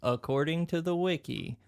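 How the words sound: The voice keeps some pitch movement.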